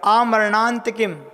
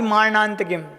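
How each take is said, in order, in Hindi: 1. शब्द एक लंबे 'aa' स्वर से शुरू होता है। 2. शब्द 'm' ध्वनि से शुरू होता है। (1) "आ बड़ा निकलेगा और मरणा निकलेगा" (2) "ना कि"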